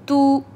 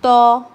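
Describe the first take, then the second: First: A thin vowel with fully rounded lips. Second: A thick vowel without fully rounded lips. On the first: The speaker calls it right. "मारूफ voice" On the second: The speaker calls it wrong. "मजहूल वॉइस ... so this is wrong"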